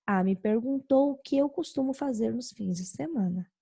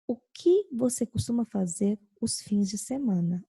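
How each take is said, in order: First: "me perguntou o que eu costumo fazer nos fins de semana" said as a report, no question lift; just tell what was asked, like a statement; indirect question, reported. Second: "O que você costuma fazer os fins de semana?" asked outright, weight on "que"; direct question tune. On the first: Teacher contrasting direct and indirect questions, reporting it. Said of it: "Olha a indireta". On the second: Teacher contrasting direct and indirect questions, asking outright. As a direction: ask it as a real question, leaning on "que". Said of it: "Uma pergunta direta".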